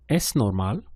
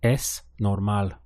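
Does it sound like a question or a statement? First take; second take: question; statement. First: It is said as a question. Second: It is said as a statement.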